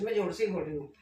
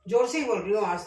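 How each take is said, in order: First: Said in the usual way. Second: Louder, projecting to the camera; speaking up. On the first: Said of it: "ऐसा मत बोलना कि नहीं बोल रही जोर से". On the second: Real, not acted. Cook checks viewers can hear her, speaking up loudly. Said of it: "आवाज आ रही है क्या मेरी आपको?".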